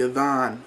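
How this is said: The middle consonant is a soft th sound.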